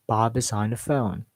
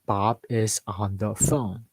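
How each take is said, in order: First: "Bob is on the phone" linked, stepping up and down; connected staircase intonation. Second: "Bob is on the phone" in separate words. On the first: Teacher models going up and down, connected words. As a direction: run "Bob is on the phone" together, falling on "phone". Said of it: "Go up and down". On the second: Teacher's example for the first tip, word by word. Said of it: "do not speak word by word". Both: Shown as a demonstration.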